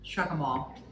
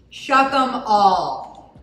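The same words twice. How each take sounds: First: Said in the usual way. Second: Slow, loud, drawn-out battle cry; dramatic proclamation. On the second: Pretend. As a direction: proclaim it like a Game of Thrones king. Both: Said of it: "Shuck 'em all".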